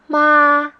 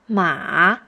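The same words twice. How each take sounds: First: The word is said in the first tone. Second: The pitch goes low, then bounces up.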